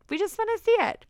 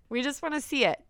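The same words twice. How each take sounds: First: Much higher and louder, squealing it out; squealy eager voyeur. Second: Said in the usual way. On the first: Pretend. Host playfully voicing eager voyeurs to listeners, squealing high. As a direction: pitch it way up like an eager peeker.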